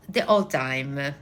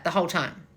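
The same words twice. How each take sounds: First: Slow, lower Italian-accented delivery. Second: Said in the usual way. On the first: Shown as a demonstration. Coach demonstrating her stage role, Italian accent. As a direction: draw it out like a stage Italian aunt. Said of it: "I spoke like this". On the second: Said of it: "And I was like that".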